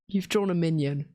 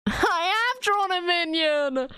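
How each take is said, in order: First: Said in the usual way. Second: High-pitched, laughing admission; laughing realisation. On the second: Real, not acted. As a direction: admit it in amused disbelief. Realises her drawing is a minion.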